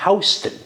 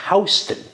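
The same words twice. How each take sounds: First: It is said the way the New York street is. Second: The same.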